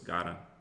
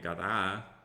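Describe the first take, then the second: First: The stress is on the first syllable. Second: The stress is not on the first syllable. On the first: The speaker calls it right. "So it's the first A" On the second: The speaker calls it wrong. "That kind of sounds wrong"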